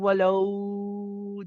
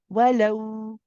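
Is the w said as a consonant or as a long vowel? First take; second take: long vowel; consonant. First: The w is drawn out as a long vowel. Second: The w is a firm consonant made with the lips. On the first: The speaker calls it wrong. "You don't want to be saying wallow. This is from the jawf" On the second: The speaker calls it right. "You are saying it from the lips"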